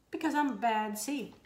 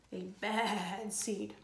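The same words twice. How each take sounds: First: Said in the usual way. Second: Slow quiet ominous echo; spooky echo. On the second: A narrator's reading. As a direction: let it hang darkly.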